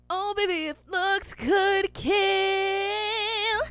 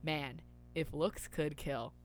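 First: High, slow, sung line; sung, belt the line as a song. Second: Said in the usual way. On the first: Acted. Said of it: "sung take of the same line". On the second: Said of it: "spoken setup line before singing".

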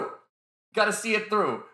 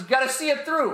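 First: Slow and insistent; slower, emphatic. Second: Higher, punchy hype voice; high energetic. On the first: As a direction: drag it out to make the point. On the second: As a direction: pitch it up with excitement. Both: Shown as a demonstration. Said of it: "I'm really loud and obnoxious".

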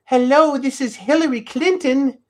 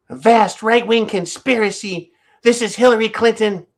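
First: High voice, a poor imitation; mock politician hello, pitched up; Hillary Clinton impression. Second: High, put-on politician voice; hammed-up Hillary, pitched up; Hillary Clinton impression. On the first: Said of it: "No, that's not her voice". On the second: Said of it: "Let's see, Hillary Clinton's voice".

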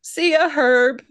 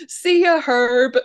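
First: Slow, breezy see ya; lightly voiced cool kid farewell; casual goodbye. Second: High, louder cheery see ya; a hint of tough kid bravado; gleeful goodbye. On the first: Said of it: "And Binky goes". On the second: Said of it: "he would be able to say".

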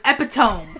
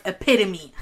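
First: Epitome as "EP-ih-tome", rhyming with home; misread pronunciation. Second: Epitome as "uh-PIT-uh-mee"; correct pronunciation. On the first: Co-host confessing how she read it, misread pronunciation. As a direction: say epitome as three syllables ending in "tome". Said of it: "I thought spelled out". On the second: Co-host explaining the word she knew, correct pronunciation. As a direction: say epitome in four syllables, stress on PIT. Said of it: "I knew the word". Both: Shown as a demonstration.

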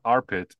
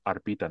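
First: Armpit said as the body part ARM-pit; wrong name. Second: Arpita said ar-PEE-ta, three syllables; correct name. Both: Shown as a demonstration. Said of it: "it's not armpit, it's Arpita now".

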